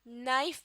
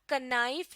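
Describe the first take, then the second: First: The word starts directly with the n sound. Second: A k sound is heard before the n. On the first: The speaker calls it right. "बल्कि नाइफ pronounce करते हैं" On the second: The speaker calls it wrong. "कनाइफ नहीं"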